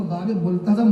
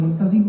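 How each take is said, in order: First: "ملتزم" with a short a in the last syllable; correct multazam. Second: "ملتزم" with an i in the last syllable; mispronounced multazim. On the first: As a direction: say "ملتزم" as mul-ta-zam. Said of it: "ملتزم نہیں". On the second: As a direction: say "ملتزم" wrongly as mul-ta-zim. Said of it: "ملتزم نہ کہیے". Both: Shown as a demonstration.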